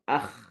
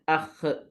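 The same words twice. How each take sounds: First: The kh sound ends cleanly without a bounce. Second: The kh sound ends with an echoing bounce. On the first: The speaker calls it right. "cuba sebut dengan jelas akh" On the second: The speaker calls it wrong. "jangan akh, jangan kita qalqalahkan dia"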